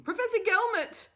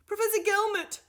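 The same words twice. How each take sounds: First: Loud, high call after him; calling out again. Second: Loud, high call down the corridor. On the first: Doctor Fugg calls out to the professor a second time, loud. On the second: Doctor Fugg calls after the professor, loud. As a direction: call after him to stop him. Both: A narrator's reading. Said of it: "she called out to him".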